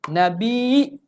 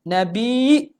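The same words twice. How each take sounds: The two takes are said the same way.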